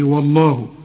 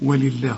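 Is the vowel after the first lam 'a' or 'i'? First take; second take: a; i. First: The first lam carries an open a vowel. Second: The first lam carries an i vowel. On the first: The speaker calls it wrong. "لو اللام الأولى مفتوحة الواو كانت تضيع منك" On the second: The speaker calls it right. "لأن اللام بتاعت لفظ الجلالة هنا مكسورة"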